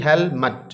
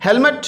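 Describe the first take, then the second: First: हेलमेट split into "hel" and "met"; syllable by syllable. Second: Said in the usual way. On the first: Shown as a demonstration. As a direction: sound out both syllables of हेलमेट separately. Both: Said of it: "दो इसके syllable हैं जी".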